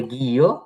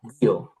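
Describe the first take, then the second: First: "গিও" stretched as gi-yo; unmerged syllables. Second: "গিও" as one short gyo, falling; merged into one syllable. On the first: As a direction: sound out both parts of "গিও". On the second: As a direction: clip "গিও" into a single beat. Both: Shown as a demonstration. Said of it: "তখন ইটা বাদ যাবে".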